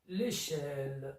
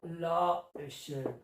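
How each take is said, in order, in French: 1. La voyelle de l'article est élidée et liée au nom. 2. La voyelle de l'article est conservée devant le nom. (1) "On dit l'échelle" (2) "on ne dit pas la échelle. Ça ne veut rien dire"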